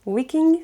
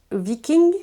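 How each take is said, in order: First: "Viking" with a W sound at the start, higher and rising; second pronunciation attempt. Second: "Viking" with a V sound at the start; first pronunciation attempt. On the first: Vlogger unsure of the author's name, "Viking" retried with a W. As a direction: try "Viking" as WEE-king, pitched up like a question. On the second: Vlogger unsure of the author's name, "Viking" tried with a V. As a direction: try "Viking" as VEE-king, slowly and questioning. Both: Shown as a demonstration. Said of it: "désolé pour la prononciation".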